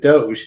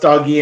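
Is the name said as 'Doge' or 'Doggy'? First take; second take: Doge; Doggy. First: The name is said as 'Doge'. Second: The name is said as 'Doggy'. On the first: This is how most people say the name. The speaker calls it wrong. "everybody mispronounces it Doge" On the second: This is how the name was meant to sound. The speaker calls it right. "the name should be pronounced Doggy"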